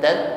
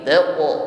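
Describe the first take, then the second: First: The q stops flat without a heavy echo. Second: The q ends with a heavy, bouncing echo. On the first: The speaker calls it wrong. "bukan tak" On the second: The speaker calls it right. "pantulannya tebal"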